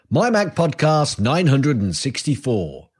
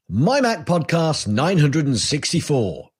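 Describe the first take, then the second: No difference in how they are said.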